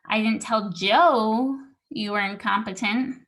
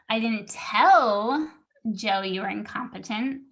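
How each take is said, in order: First: The word Joe is stressed. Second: The word tell is stressed. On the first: It was told to someone other than Joe. "I told the other guy, but not Joe" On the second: It was communicated another way, not spoken. "I emailed him, but I didn't tell him"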